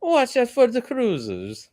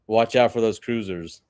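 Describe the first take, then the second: First: High, slow put-on Italian accent; mock Italian accent. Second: Said in the usual way. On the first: Storyteller playfully redoing the warning about cruisers, mock Italian accent. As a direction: ham up an Italian accent, pitched way up. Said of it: "I like how you made him sound Italian".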